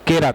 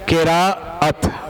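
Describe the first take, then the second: First: The vowel after r is short: qirat. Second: The vowel after r is broken: qira-at. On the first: The speaker calls it wrong. "यह तरीका सही नहीं है" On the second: The speaker calls it right. "एक लफ्ज क्या है"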